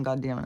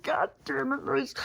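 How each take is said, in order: First: Said in the usual way. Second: High-pitched strained scolding without volume; exasperated, not yelling. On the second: Retold or imitated. Dog walker cursing at Maurice on the street, high exasperation. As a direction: squeak out frustration, holding back the yell. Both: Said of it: "I'm not yelling".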